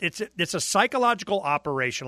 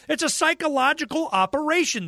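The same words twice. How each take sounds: First: Said in the usual way. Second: "psychological operation" said much higher and with insistence; emphatic repeat. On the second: Shown as a demonstration. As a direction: hammer home "It's a psychological operation" higher.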